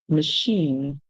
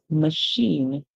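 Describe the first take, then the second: No difference in how they are said.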